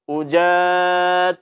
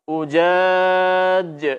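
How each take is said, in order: First: The final j leaks air like an s. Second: The final j is bounced with a clear release. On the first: The speaker calls it wrong. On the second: The speaker calls it right.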